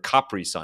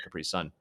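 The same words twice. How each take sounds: First: It is said with an Italian-style pronunciation. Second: It is said with a plain English pronunciation.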